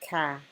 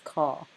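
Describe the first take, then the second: First: The vowel is a light, front ah. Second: The vowel is a heavy, back ah. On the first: The speaker calls it wrong. "you wouldn't say, like we say grass" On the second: The speaker calls it right. "So these are heavy letters sounding ah"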